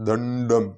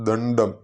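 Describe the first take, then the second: Both takes have the same delivery.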